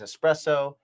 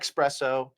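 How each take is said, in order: First: The word starts with an 'ess' sound. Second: The word starts with an 'ex' sound. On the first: The speaker calls it right. "It is" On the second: The speaker calls it wrong. "It is not"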